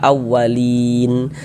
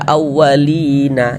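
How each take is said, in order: First: The word ends on a bare n sound. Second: The word ends with an added a vowel. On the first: The speaker calls it right. "kita kalau berhenti di huruf nun kita baca awalin" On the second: The speaker calls it wrong. "Jangan dibaca awalina"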